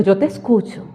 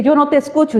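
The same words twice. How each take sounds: First: Lower, softer answer; God's reassuring reply. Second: Slightly raised voice quoting a complaint; mild mock complaint; imitated complaint. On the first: Retold or imitated. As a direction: drop the voice into quiet reassurance. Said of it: "el Señor dice". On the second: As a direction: echo someone's protest, pitched up a little. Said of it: "Y tú dices que".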